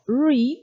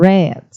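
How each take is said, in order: First: It is said with the present-tense pronunciation. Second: It is said with the past-tense pronunciation. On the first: It means to read now. "read significa ler" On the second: It means already read in the past. "O passado dele é read"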